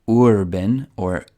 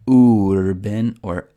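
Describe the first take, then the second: The two takes are said the same way.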